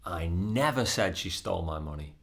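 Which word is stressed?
never. The stress falls on the word never. The speaker denies ever having said it. "That is emphasizing that it's not something that I said"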